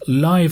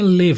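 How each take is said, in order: First: لایو, rhymes with "hive"; lajv for the adjective. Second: لیو, short vowel, rhymes with "give"; liv for the verb. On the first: Teacher showing students the adjective reading, لایو with "ai". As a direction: say لایو with a long "ai" as in "five". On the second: Teacher contrasting the verb reading, لیو with short "i". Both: Shown as a demonstration.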